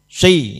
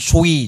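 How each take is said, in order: First: The vowel is only slightly rounded. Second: The vowel is overly rounded toward u. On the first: The speaker calls it right. "ya gitu" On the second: The speaker calls it wrong. "Jangan sui, jangan begitu ya"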